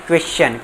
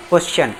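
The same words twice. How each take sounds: First: क्वेश्चन said as "kwesh-chan"; क्वेश्चन with "kwe" opening and "chan" ending; correct pronunciation. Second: क्वेश्चन said as "koshchan", without the w glide; क्वेश्चन with a plain "ko" opening; common mispronunciation. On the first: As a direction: sound the "kwe" glide clearly in क्वेश्चन. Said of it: "लेकिन ये होता है". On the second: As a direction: drop the "we" sound in क्वेश्चन, saying "kosh-chan". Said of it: "बहुत सौ इसको क्या पढ़ देते हैं". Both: Shown as a demonstration.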